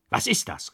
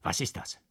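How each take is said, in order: First: Higher, startled call; alarmed cry. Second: Breathless whisper of confusion; one guest whispering in alarm. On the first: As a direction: another voice calls out in alarm. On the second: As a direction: ask it under your breath, startled. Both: A narrator's reading. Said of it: "rief es durcheinander".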